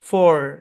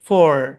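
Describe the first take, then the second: No difference in how they are said.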